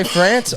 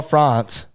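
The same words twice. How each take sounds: First: France with the flat vowel of "cat"; short-A France. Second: France with the open vowel of "father"; long-A France. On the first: Friend asking which one you say, France with short "a". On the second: Friend asking which one you say, France with long "ah". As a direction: say France as "Frahnce". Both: Shown as a demonstration. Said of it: "Do you say France or France?".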